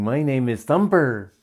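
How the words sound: The final r is pronounced, American style.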